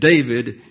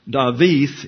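First: It has a v sound and ends in d. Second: It has a w sound and ends in th. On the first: "and David in English" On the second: "David is pronounced Dawith in Hebrew"

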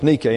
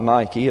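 First: The word ends in an 'ay' sound. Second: The word ends in an 'ee' sound. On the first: This is how the Greek word is said. The speaker calls it right. "so it's pronounced like an English A" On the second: This is how the shoe brand is said. The speaker calls it wrong. "So not Nike"

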